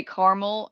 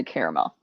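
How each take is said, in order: First: "caramel" as CAR-mul, middle vowel dropped; two-syllable caramel. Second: "caramel" as CARE-uh-mel; three-syllable caramel. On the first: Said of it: "I sometimes say stuff differently". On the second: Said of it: "sometimes I'll say caramel". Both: Shown as a demonstration.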